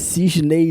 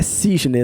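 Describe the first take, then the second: First: The word ends with an added 'ee' glide. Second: The word ends in a plain vowel sound. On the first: The speaker calls it wrong. "não é Cisney não" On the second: The speaker calls it right. "é Cisne, não é Cisney não"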